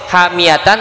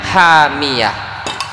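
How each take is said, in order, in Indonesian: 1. Kata ini berakhir dengan suku kata 'tan' yang penuh. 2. Kata ini berakhir terpotong dengan 'h' di akhir. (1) "Tulisannya hamiyatan" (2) "dibacanya hamiyah"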